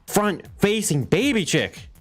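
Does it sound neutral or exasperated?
exasperated. It is said in an exasperated, insistent way.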